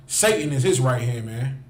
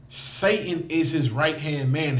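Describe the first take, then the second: First: Said in the usual way. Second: "Satan is his right hand man" said slowly, every word weighted; slowed for emphasis. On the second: Shown as a demonstration. Preacher repeating it to the crowd, slow and weighty.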